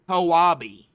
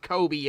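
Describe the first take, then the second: First: The name is said as Koabi. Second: The name is said as Kobe. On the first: The speaker calls it right. "it is pronounced Ko-A-B" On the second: The speaker calls it wrong. "I thought it was pronounced Kobe as well, but it's not"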